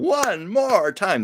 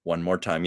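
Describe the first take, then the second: First: "One more time" drawn out slow and pitched higher, like a stage director; showbiz catchphrase. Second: Said in the usual way. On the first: Shown as a demonstration. Performing the old show business saying with a slow, high theatrical call. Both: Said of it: "like the old show business saying".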